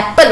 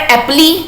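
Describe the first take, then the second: First: The word ends on a plain 'l' sound. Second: The word ends with an extra 'ee' vowel. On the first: The speaker calls it right. "इसका ना pronunciation क्या होता है? एप्पल होता है" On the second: The speaker calls it wrong. "अब कोई भी पढ़े एप्पली"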